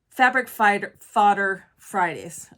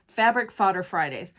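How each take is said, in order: First: The phrase is said at a normal, halting pace. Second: The phrase is said quickly in one run. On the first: "I can't even say it correctly" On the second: "Say it fast"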